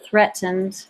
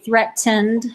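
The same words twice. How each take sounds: First: The middle T sound is dropped or swallowed. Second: The middle T sound is clearly pronounced. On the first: "but I kind of slang" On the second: "if I said it really right, I'd say threatened"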